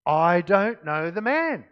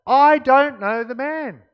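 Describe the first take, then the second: First: Slow, firm, deliberate denial; emphatic but controlled denial, slightly louder; sworn denial. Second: High, loud, drawn-out denial; escalated, emphatic protest at full volume; vehement sworn denial. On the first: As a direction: stretch each word out as if under oath. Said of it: "an oath". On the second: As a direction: swear it forcefully, stretching each word. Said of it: "he began to call down curses". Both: A narrator's reading.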